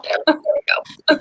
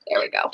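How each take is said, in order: First: Slow breathy whisper. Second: Said in the usual way. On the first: Real, not acted. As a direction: breathe it out slowly under your voice. Repeats phrase, second whispered.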